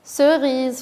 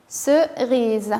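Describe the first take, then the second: First: Said in the usual way. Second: "Cerise" drawn out, first syllable held apart; careful enunciation. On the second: Shown as a demonstration. Teacher has children listen for the sound O, careful enunciation. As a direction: say "Cerise" slowly in two parts. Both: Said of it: "faites attention".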